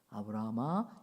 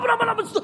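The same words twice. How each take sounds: First: The name is called very softly and gently. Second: The name is called urgently and forcefully. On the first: God calls calmly, preparing him for a test. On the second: God rushes to stop him at the last moment.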